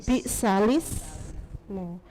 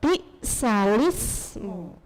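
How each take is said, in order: No difference in how they are said.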